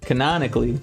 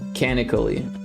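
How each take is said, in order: First: The middle 'non' syllable is fully said. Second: The middle 'non' syllable is left out. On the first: The speaker calls it right. "There we go. That's how you say it" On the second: The speaker calls it wrong. "You are missing an N every time you say it"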